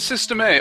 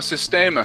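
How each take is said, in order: First: It is said as two words, ending in letter A. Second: It is said as one word, ending in 'uh'.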